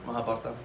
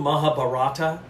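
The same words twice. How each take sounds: First: It has a native Indian pronunciation. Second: It has an anglicized, spelling-based pronunciation. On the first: The speaker calls it right. "That's how it's pronounced" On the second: The speaker calls it wrong. "they always go Mahabharata"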